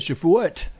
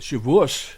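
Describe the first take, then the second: First: The word ends with a t sound. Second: The word ends with an s sound. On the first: "with a T" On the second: "if you use the S sound for the te"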